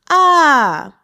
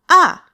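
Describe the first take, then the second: First: The falling syllable is drawn out slowly. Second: The falling syllable is said at normal speed.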